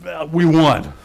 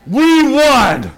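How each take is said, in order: First: Said in the usual way. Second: Higher and louder we won; triumphant. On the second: Real, not acted. Preacher tells the church they won, triumphant. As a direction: proclaim the victory.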